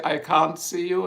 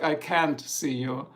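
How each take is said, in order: First: British "can't". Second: American "can't". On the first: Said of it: "So in British, they would say". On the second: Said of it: "In American, it's like". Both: Shown as a demonstration.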